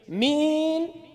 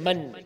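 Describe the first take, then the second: First: It is said with a Syrian Arabic accent. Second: It is said in standard Arabic pronunciation. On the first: "But in the Syrian accent" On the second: "She was actually saying Man, meaning who"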